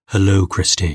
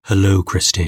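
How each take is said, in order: First: It is said in a low, sultry voice. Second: It is said in a low, sultry voice.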